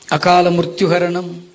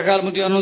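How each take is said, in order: First: It is said slowly. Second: It is said quickly.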